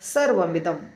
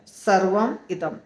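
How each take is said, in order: First: The two words are joined into one. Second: The two words are said separately. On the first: "सर्वमिदम हो जाता है" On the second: "सर्वम और इदम फिर से दो शब्द है"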